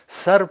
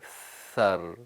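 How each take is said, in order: First: The consonant is a hissed s sound. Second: The consonant is a blown voiceless th sound. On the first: The speaker calls it wrong. "सर से आवाज़ बदल गई" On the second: The speaker calls it right. "ज़बान को सामने वाले जो दो दांत हैं उसके करीब करें और फूंकें"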